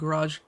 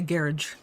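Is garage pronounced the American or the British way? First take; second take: American; British. First: It is pronounced the American way. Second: It is pronounced the British way.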